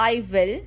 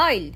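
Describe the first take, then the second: First: "I will" as two full, separate words; uncontracted. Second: "I'll" as one syllable ending in l; contracted. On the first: English coach showing what to avoid, "I will" said in full. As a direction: sound both "I" and "will" completely. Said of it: "Instead of". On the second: English coach modelling natural speech, "I'll" in one syllable. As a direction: join "I'll" into one short word. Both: Shown as a demonstration.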